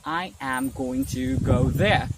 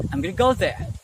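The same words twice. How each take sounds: First: Slow, every word separated. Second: "gonna" run together as one quick word; merged letters. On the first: Teacher showing learners the slow way to avoid, word-by-word. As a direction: say each word on its own, unmerged. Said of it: "instead of saying". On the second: Teacher showing learners how to speak faster, merged words. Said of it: "simply say". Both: Shown as a demonstration.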